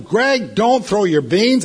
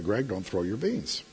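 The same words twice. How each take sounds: First: Much higher and louder, slow angry yell; a fed-up dad's loud, slow yell. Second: Put-on soft, patient correction to a toddler; a patient dad's soft warning; calm first warning. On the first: Retold or imitated. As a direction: bark the order at the toddler. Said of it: "I yelled at him". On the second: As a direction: gently tell the baby no, quietly. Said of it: "Finally, I yelled at him".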